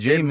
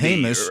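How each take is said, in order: First: The name begins with a J sound. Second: The name begins with an H sound. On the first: "call Andre James Andre James" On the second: "I think he's pronounced it like an H"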